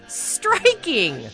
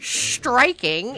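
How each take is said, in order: First: The word begins with a plain s. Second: The word begins with an sh sound. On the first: The speaker calls it right. "it's striking" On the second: The speaker calls it wrong. "it's not striking"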